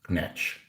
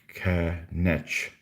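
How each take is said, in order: First: The word is run together as one syllable. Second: The word is split into two separate syllables.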